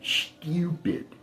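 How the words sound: It is said in a British accent.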